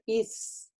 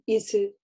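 First: The s is held slightly long, with no vowel. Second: The s is cut short with a vowel after. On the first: The speaker calls it right. "читается чуть-чуть протяжно на сукуне" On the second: The speaker calls it wrong. "не говорим «исы»"

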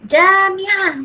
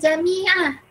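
First: The first vowel is long, the second short. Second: The first vowel is short, the second long. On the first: The speaker calls it right. "Mim tu pendek, Jim yang panjang" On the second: The speaker calls it wrong. "bukan Jami'ah"

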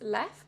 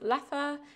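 First: The name is said with a French pronunciation. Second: The name is said with a Flemish pronunciation. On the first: "I think in French is Leffe" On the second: "in Flemish, which is Dutch, it is Leffe"

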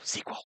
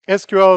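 First: It is said as one word, "sequel". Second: It is spelled out as three separate letters. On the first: The speaker calls it wrong. "she goes, sequel" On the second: The speaker calls it right. "SQL is an initialism"

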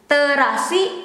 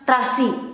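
First: The word has three syllables, with its vowel. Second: The word has two syllables, vowel dropped. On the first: "two syllables instead of three" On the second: "it becomes terasi"

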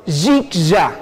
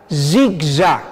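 The two takes are said the same way.

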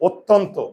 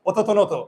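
First: The consonants join in clusters without extra vowels. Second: Extra vowels separate every consonant in the word. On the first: The speaker calls it right. "আর হসন্ত দিলেই উচ্চারণ হবে" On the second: The speaker calls it wrong. "হসন্ত না দিলে হবে অততনত"

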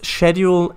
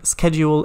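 First: The word is pronounced the British way. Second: The word is pronounced the American way. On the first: "schedule in British English" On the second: "schedule in American English"

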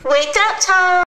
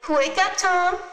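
First: It is shouted at a higher volume. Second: It is shouted at a lower volume.

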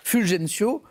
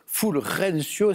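First: The name is said with a French soft g. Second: The name is said with a Spanish throaty h.

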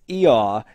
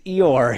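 First: The name ends without an R sound. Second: The name ends with an R sound. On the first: This is how the name is said in Britain. "it is a silent R here" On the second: This is how the name is said here. "but we pronounce the R, so he's Eeyore here"

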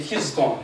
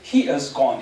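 First: The word 'is' is contracted to a z sound. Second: The word 'is' is said in full. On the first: This is the casual spoken way to say it. "Otherwise, you can say he's gone" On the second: This is the formal way to say it. "if you are a formal speaker"

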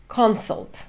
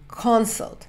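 No difference in how they are said.

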